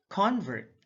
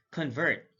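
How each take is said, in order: First: CONvert, high full CON; careful demo of CONvert; stress on first syllable. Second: ConVERT, second syllable stressed; careful demo of conVERT. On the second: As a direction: hit the VERT in "convert". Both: Shown as a demonstration. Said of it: "stress is the verbal emphasis used".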